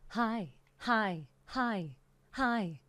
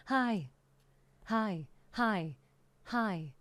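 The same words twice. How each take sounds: The two takes are said the same way.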